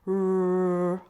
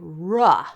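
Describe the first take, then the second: First: The R sound is held with no added vowel. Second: The R sound ends with an added uh vowel. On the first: The speaker calls it right. "We say r like red" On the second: The speaker calls it wrong. "we don't say ruh when we make the sound of R. Don't do that"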